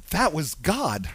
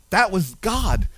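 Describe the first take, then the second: First: Low, soft, reverent; hushed awe. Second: Said in the usual way. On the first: Real, not acted. Pastor recalling God's hand, softly awed. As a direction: say it as a quiet revelation. Pastor's own realization, repeated.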